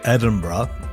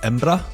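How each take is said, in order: First: The name is said in full, several syllables. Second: The name is squeezed into two short syllables. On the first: This is how most Scottish people say it. "most Scottish people say Edinburgh" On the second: This is how a true local says it. "really truly a local, you say something more like Embra"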